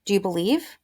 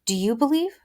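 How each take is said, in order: First: Weight on "you", then a light rising "believe"; stress on you. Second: Weight on "believe", rising like a question; stress on believe. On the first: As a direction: push the word "you" and lift the end. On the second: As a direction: lean into "believe" and lift it at the end. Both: Shown as a demonstration. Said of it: "I'm not really sure where she wants the emphasis there".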